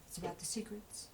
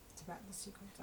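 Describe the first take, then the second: First: Said in the usual way. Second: "It's about the secrets." dropped much softer, almost breathed; hushed repeat. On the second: Shown as a demonstration. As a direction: lean in and say it softly like a secret.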